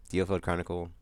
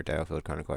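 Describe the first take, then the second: First: "Dio" said DEE-oh; long ee in the first syllable of "Dio"; first pronunciation. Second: "Dio" said DYE-oh; first syllable of "Dio" rhymes with "eye"; alternative pronunciation. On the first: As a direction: say the "Dio" in Dio Field Chronicle as "dee-oh". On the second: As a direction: say the "Dio" in Dio Field Chronicle as "dye-oh". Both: Real, not acted. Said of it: "I forgot how it's pronounced".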